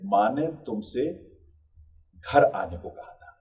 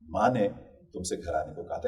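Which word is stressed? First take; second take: घर; माँ. First: The stress falls on the word घर. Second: The stress falls on the word माँ. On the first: You were told to come home, not go elsewhere. "कहीं और जाने को नहीं कहा था, घर आने को कहा था।" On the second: It was mother who gave the instruction. "इसमें माँ पर अगर हम दबाव डालते हैं तो इसका कुछ अलग अर्थ निकलता है।"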